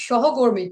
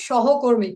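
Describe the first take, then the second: Both takes have the same delivery.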